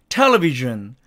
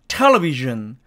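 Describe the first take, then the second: No difference in how they are said.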